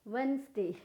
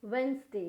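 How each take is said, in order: Both takes have the same delivery.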